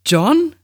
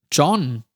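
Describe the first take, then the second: First: High, louder questioning JOHN, rising sharply; Amy. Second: Puzzled, hesitant statement of JOHN; confused answer. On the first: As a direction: call JOHN as a friend's high-voiced question. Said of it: "Ich erkannte Amys Stimme". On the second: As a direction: say JOHN in mild confusion, tone falling. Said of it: "antwortete ich verwirrt". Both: A narrator's reading.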